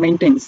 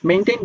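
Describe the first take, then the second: First: "মেইনটেইনস" with an audible s at the end; "মেইনটেইনস" closing on a clear s; final S sounded. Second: Said in the usual way. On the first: Shown as a demonstration. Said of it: "এস উচ্চারণ করি তখন হবে". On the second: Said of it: "লাস্টের শেষে উচ্চারণটা হবে যে এস দিয়া".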